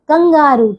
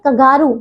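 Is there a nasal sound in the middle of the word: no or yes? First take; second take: yes; no. First: The word has a nasal sound before 'g'. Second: The word has no nasal sound in the middle. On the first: The speaker calls it right. "नहीं कंगारू" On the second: The speaker calls it wrong. "नहीं कंगारू"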